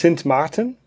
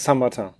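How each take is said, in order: First: The name is pronounced the Dutch way. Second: The name is pronounced the French way. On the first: This is the name used in the southern part. "im südlichen Teil ist es" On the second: This is the name used in the northern part. "im nördlichen Teil ist es"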